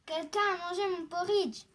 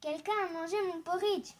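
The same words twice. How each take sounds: First: Louder, lightly voiced angry big bear; mildly angry exclamation, loud and indignant. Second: Lightly voiced middle-sized bear; a hint of an indignant middle bear; medium bear voice. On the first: Big bear finding his porridge eaten, mildly angry. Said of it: "dit de sa grosse voix en colère". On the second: Middle bear finding porridge eaten, lightly voiced medium voice. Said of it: "dit de sa voix moyenne". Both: A narrator's reading.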